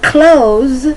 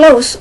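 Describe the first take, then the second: First: The word ends with a buzzing z sound. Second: The word ends with a soft s sound. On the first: "spelt C L O Z or C L O Z E" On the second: "written phonetically C L O S"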